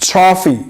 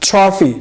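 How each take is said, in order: No difference in how they are said.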